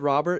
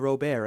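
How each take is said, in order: First: The name is said with a plain English pronunciation. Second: The name is said with an exaggerated Spanish accent. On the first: "I have said Robert" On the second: "overpronounce the Spanish accent"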